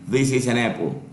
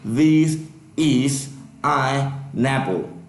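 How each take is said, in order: First: The words run together with linked sounds. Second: Each word is said separately without linking. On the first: The speaker calls it right. "it's like this" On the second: The speaker calls it wrong. "I'm not going to say"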